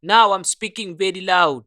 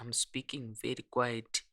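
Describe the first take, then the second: First: Much louder, projecting hard. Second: Much softer, barely above a murmur; quiet voice. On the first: Recording a test line for the compressor, loud. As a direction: belt it out for the demo. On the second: Recording a test line for the compressor, quiet. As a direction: speak low and soft for the demo. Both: Shown as a demonstration.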